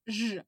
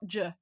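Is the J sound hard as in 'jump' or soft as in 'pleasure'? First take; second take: soft; hard. First: The J is soft, like the 's' in pleasure. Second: The J is hard, like the 'j' in jump. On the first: The speaker calls it right. "It's J as in pleasure" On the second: The speaker calls it wrong. "not J"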